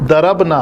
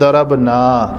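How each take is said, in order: First: The vowel is kept short. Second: The vowel is drawn out long. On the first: The speaker calls it right. "हम कहना चाहते हैं" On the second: The speaker calls it wrong. "थोड़ा सा लंबा कर देते हैं"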